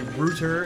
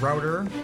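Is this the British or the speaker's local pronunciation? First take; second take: British; local. First: It is said the way Britons say it. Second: It is said the way the speaker's region says it. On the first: "Britons say root instead of route, they say router" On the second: "everybody where I'm from says route and router"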